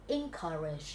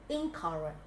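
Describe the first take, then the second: The two takes are said the same way.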